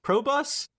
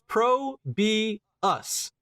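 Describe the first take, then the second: First: It is said as two syllables, pro bus. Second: It is said as three separate syllables. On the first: The speaker calls it wrong. "everyone's like, "Pro Bus." Like, no" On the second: The speaker calls it right. "It's very obvious. It's Pro B Us"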